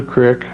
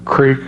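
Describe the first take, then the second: First: Creek said as "crick"; dialect pronunciation. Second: Creek with a long ee; standard pronunciation. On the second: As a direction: say creek to rhyme with "seek". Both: Shown as a demonstration. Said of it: "however you say it".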